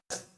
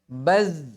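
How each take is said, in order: First: The final consonant is a voiceless hissing s. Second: The final consonant is a voiced buzzing z. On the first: The speaker calls it wrong. "jangan sampai berubah menjadi sin. Ya, jadi bukan baz" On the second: The speaker calls it right. "apalagi ketika disukun ya"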